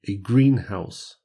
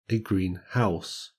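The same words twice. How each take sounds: First: The stress falls on green. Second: The stress falls on house. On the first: It is a compound noun. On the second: It is an adjective with a noun.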